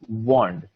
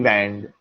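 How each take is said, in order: First: The vowel does not sound like 'and'. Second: The vowel sounds like the one in 'and'. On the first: The speaker calls it right. "W A N D is wand" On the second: The speaker calls it wrong. "A and D is and, so shouldn't it be wand? But no, it's not"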